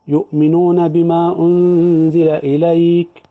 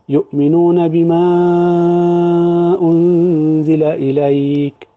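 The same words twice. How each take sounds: First: The vowel before the hamza is held briefly. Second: The vowel before the hamza is held moderately long. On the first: "ده قصر" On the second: "ده التوسط"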